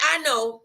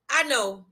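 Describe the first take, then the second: No difference in how they are said.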